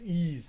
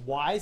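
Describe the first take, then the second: First: The name begins with a long e sound. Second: The name begins with a w sound. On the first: The speaker calls it right. "No, it's Ease" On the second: The speaker calls it wrong. "some people may mispronounce the name"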